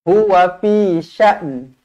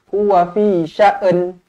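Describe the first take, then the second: First: The last word ends with a light n sound. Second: An extra vowel is added before the final n. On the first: The speaker calls it right. "bunyikan sedikit huruf nun" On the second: The speaker calls it wrong.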